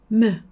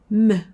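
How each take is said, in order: The two takes are said the same way.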